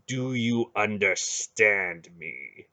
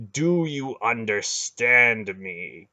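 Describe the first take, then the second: First: Slow, heavy demand; slow menacing demand. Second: Slow, louder repeated demand; harder menacing demand. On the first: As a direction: drag each word out coldly. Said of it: "he demanded". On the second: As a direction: press it harder the second time. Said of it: "Garen repeated". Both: Acted.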